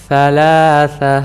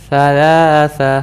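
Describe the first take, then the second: The two takes are said the same way.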